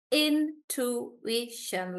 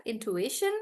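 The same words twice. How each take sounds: First: "Intuition" very slow, in-tu-i-tion with gaps; syllable by syllable. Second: Said in the usual way. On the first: Shown as a demonstration. Teacher showing it like that, syllable by syllable. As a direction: separate the four beats of "Intuition". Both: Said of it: "like that".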